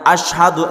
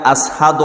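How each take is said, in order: First: The middle consonant is a 'sh' sound. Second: The middle consonant is an 's' sound. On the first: "আশহাদু এর জায়গা" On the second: "সিনের জায়গায় সিন বলে দেয়"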